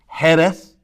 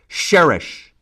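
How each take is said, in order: First: It is said the Spanish way, with a rasped start. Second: It is said the Arabic way, ending in sh. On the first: "the Spanish pronunciation"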